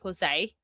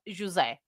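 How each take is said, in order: First: The name is said with English pronunciation. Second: The name is said with Portuguese pronunciation. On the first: This is how the listeners say it. "I know you guys say Jose" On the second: This is how the speaker normally says it. "I say it in a Portuguese way. I say it José"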